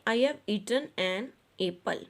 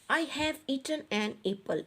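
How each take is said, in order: First: "I have" run together as I've; contracted form. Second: Said in the usual way. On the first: Shown as a demonstration. Teacher showing the class the contraction form, "I have" contracted. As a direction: merge "I have" into one contracted word, slow reading. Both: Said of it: "इसको हम construction form में इस तरह से लिखेंगे".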